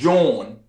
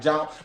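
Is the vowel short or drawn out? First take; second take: drawn out; short. First: The vowel is drawn out, local style. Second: The vowel is short, out-of-towner style.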